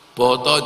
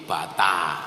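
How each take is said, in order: First: The vowels are said as O, Purworejo style. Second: The vowels are said as A, Kebumen style.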